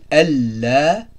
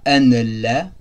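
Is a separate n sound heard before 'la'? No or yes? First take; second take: no; yes. First: The n merges into the following l. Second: A separate n sound is heard before la. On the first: The speaker calls it right. "on dit Allah" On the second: The speaker calls it wrong. "on ne dit pas an Allah"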